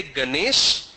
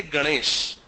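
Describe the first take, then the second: First: Said in the usual way. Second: "Ganesh" with a retroflex N; Marathi pronunciation. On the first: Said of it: "They don't say Ganesh". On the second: Shown as a demonstration. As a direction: curl the tongue back on the N of "Ganesh". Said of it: "they say Ganesh".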